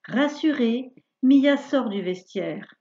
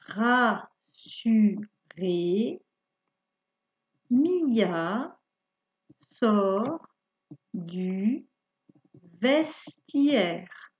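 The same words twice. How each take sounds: First: It is read at a faster pace. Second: It is read at a slower, normal pace.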